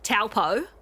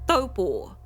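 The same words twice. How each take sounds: First: The first consonant is a hard t sound. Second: The first consonant is a soft, th-like t. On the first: The speaker calls it wrong. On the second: The speaker calls it right. "It's a Māori word, and it's pronounced taupo. ... the T is a soft T. It's a th rather than a t"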